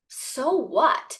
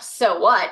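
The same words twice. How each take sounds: First: It is said as a sincere, real question. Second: It is said casually and dismissively. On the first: The consequences are genuinely being considered. The speaker calls it right. "it's not a hypothetical question" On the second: The outcome does not matter. The speaker calls it wrong. "the tone of it isn't just like a like, oh"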